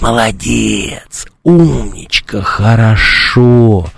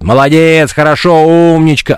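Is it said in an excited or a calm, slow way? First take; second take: calm; excited. First: It is said in a calm, slow way. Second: It is said in a lively, excited way.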